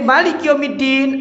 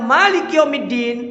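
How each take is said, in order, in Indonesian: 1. Vokal setelah m pertama pendek. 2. Vokal setelah m pertama panjang. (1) "kalau panjenengan baca pendek" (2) "Kalau mimnya panjang"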